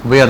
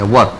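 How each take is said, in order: First: वेयर stretched into way-er as the rejected form; wrong way. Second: वर said short, one clipped syllable wur; वर as a single crisp syllable; right way. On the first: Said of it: "वेयर नहीं पढ़ेंगे". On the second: Teacher gives students the correct reading of were, plainly. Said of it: "वर पढ़ेंगे इसे हम लोग". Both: Shown as a demonstration.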